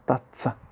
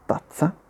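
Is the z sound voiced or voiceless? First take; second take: voiceless; voiceless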